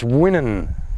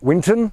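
First: The T in the middle is not pronounced. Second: The T in the middle is clearly pronounced. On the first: This is how locals say the name. "you don't pronounce the T" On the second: This is how an outsider says the name. "I still call it Winton"

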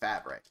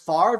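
First: The v sound comes before the r sound. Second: The r sound comes before the v sound. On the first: "It's F-A-V-R-E" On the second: "it would be F-A-R-V-E"

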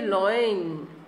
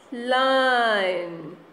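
First: The vowel sounds like the one in 'coin'. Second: The vowel sounds like the one in 'fine'. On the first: The speaker calls it wrong. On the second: The speaker calls it right.

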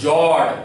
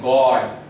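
First: The word begins with a soft J sound. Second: The word begins with a hard G sound. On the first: The speaker calls it wrong. "You never read it as jod" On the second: The speaker calls it right. "You always read it as God"

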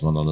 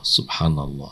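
First: It is said flatly, in a monotone. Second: It is said with expressive, varied pitch. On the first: The person says it without awareness. The speaker calls it wrong. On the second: The person is aware they are saying it. The speaker calls it right.

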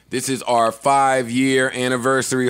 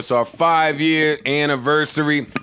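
First: It is said with low energy. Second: It is said with high energy.

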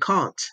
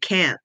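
First: The vowel is short and clipped, British style. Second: The vowel is drawn out, American style. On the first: "I used to say can't" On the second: "I didn't drag my A's. So I didn't say can't"

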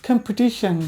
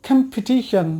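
The two takes are said the same way.

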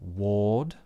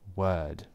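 First: The vowel is 'or', said with rounded lips. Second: The vowel is 'er', said with relaxed lips. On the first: The speaker calls it wrong. "it's not word and ward with an or vowel with rounded lips" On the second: The speaker calls it right. "but word and word, exactly the same"

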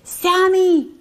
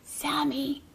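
First: It is said louder still. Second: It is said a little louder.

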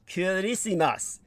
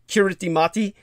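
First: It is said with an S sound instead. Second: It is said with a T sound, as spelled. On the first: The speaker calls it right. "So it's actually pronounced" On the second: The speaker calls it wrong. "that's what it, it's going to look like it says"

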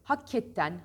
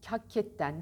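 The two takes are said the same way.

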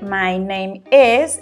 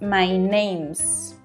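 First: The verb is said in full as a separate word. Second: The verb is contracted onto the previous word. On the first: "en vez de decir my name is" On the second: "estamos utilizando una contracción y decimos my names, which can help you sound more natural"

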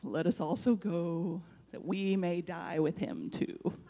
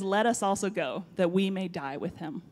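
First: It is said in a gloomy Eeyore voice. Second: It is said in his normal voice.

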